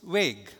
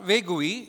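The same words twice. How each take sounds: First: The final 'ue' is silent, one syllable only. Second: The final 'ue' is sounded as an extra syllable. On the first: The speaker calls it right. "the U-E is silent" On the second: The speaker calls it wrong. "So it's not vague"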